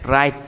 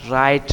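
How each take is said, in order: First: The word begins with an r sound. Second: The same.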